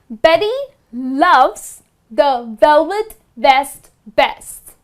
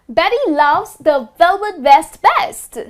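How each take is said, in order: First: It is said slowly. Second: It is said fast.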